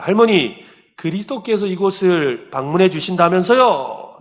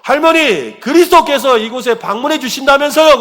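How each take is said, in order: First: Raised, higher voice for a question; acted pastor addressing grandmother, moderately loud; pastor asking. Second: High, loud acted shout; shouted question. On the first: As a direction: call the question out to an elderly woman. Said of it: "그 할머니에게 다가가서 이야기합니다". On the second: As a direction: shout it for someone hard of hearing. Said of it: "더 큰 소리로".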